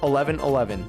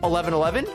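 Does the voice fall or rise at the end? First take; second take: fall; rise. First: The voice falls at the end like a statement. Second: The voice rises at the end like a question. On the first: The speaker calls it right. "There it is" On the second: The speaker calls it wrong. "I said that with a question mark"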